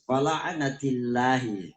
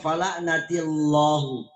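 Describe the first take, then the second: First: The L of Allah is thin and light. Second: The L of Allah is thick and heavy. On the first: The speaker calls it right. "otomatis lafzul jalalanya adalah tipis" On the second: The speaker calls it wrong. "Kalau kita tebalkan fala'natillahu, itu seakan-akan tidak pas"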